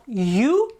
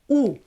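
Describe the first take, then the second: First: The vowel is long and drawn out. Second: The vowel is very short. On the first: The speaker calls it wrong. "It's not you" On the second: The speaker calls it right. "it's just very short"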